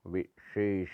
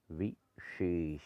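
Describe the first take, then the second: First: विशेष begun "ve", as "veshesh"; wrong vowel. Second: विशेष as slow "vi - shesh"; correct, slow. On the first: Teacher showing the error, विशेष with opening ve. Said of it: "नहीं होता". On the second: Teacher correcting it, विशेष very slow and split. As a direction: draw विशेष out with a clear vi. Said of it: "होता है". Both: Shown as a demonstration.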